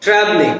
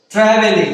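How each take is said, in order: First: "ট্রাভেলিং" as two syllables, trav-ling; dropped vowel. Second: "ট্রাভেলিং" in three syllables, tra-ve-ling; common mispronunciation. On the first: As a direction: drop the "e" in "ট্রাভেলিং". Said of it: "ইটাকে আমরা drop করে দিয়ে". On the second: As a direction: sound the middle "e" in "ট্রাভেলিং". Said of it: "আজ থেকে আমরা ট্রাভেলিং বলবো না". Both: Shown as a demonstration.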